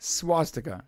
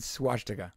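First: "Swastika" with a clean s, swas-tika; corrected pronunciation. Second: "swastika" with sh in the middle, swash-tika; mispronounced word. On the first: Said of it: "It's swas". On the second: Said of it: "there's no H". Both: Real, not acted.

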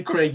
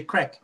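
First: "Craig" with a long AY, like "crayg"; British pronunciation of Craig. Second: "Craig" with a short E, like "creg"; American pronunciation of Craig. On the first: Host shows how the British say it, "Craig" with an AY vowel. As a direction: say "Craig" to rhyme with "vague". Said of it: "We say Craig". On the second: Host mimics the caller's way, "Craig" as "creg". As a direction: say "Craig" to rhyme with "leg". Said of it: "you say Craig". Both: Shown as a demonstration.

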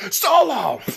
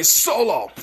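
First: Sharp mock call, pitched up; hammed-up angry summons. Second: Said in the usual way. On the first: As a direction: bark the name like an upset boss. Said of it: "he gets all flustered and angry". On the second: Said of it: "Roman getting all upset".

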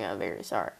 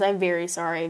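First: Deep mock-serious apology; very low deadpan. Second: Said in the usual way. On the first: Shown as a demonstration. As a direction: drop to a low, flat apology. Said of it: "deadpan low repeat". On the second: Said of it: "apology take one".

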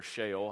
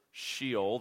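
First: Sheol said the other way, like "SHAY-ole"; alternative pronunciation of Sheol. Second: Sheol said the speaker's first, usual way; first pronunciation of Sheol. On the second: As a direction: say "Sheol" in the familiar English way. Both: Shown as a demonstration. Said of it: "however you pronounce it".

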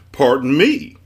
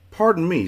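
First: Loud "Pardon me" rising on "me"; indignant echo. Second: High "Pardon me" falling at the end; polite hail. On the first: Man echoes Milo's greeting, loud and questioning. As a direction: throw it back loudly as a question. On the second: Milo to a passing stranger, polite high hail. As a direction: politely catch someone's attention, pitched high. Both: A narrator's reading.

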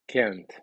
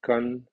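First: "can't" accented, different vowel, closed by a T; stressed "can't" ending in a clear T; negative can't. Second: "Can" with its own vowel and no final T; level, open-ended "Can"; positive can. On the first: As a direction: say "can't" strongly, falling, with a final T. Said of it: "la vocal y la T". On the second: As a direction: say "Can" ending on the N, without a stop. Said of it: "tres diferencias entre can y can't". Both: Shown as a demonstration.

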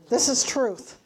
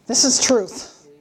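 First: Said in the usual way. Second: Slow, louder this is truth, weight on "is"; emphatic declaration. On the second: Real, not acted. Preacher to congregation, slow and louder. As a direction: plant "this is truth" firmly and slowly.

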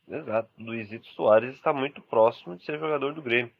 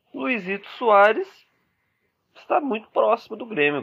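First: Said in the usual way. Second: Excited announcement. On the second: Acted. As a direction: call it out like big transfer news. Breaking transfer news to fans.

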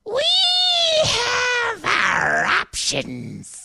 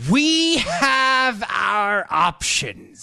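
First: High, slow, loud witch shriek; Wicked Witch voice. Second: Slow, high, loud cackling quote; mock Nancy Pelosi. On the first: Retold or imitated. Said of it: "sound more like the Wicked Witch of the West". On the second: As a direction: drag it out like a shrill villain. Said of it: "House Speaker Nancy Pelosi".

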